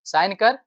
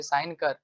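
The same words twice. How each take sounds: First: "sign कर" snapped louder, rising on "कर"; mock angry demand. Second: Said in the usual way. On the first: Teacher acting out an angry demand to a clerk, louder mock order. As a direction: bark "sign कर" at the lazy clerk. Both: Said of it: "मतलब गुस्से में कहोगे".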